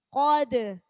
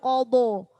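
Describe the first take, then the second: First: The D sound is thin and light. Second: The D sound is thick and heavy. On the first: The speaker calls it right. "dalnya huruf tipis" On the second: The speaker calls it wrong. "Jangan dalnya ikut tebal"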